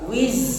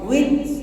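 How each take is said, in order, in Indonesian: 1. Konsonannya bunyi z yang bergetar. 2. Konsonannya seperti bunyi hambat yang ditahan. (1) "itu zai" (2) "itu antara jim atau zai"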